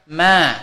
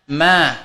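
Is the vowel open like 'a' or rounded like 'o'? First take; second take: open a; open a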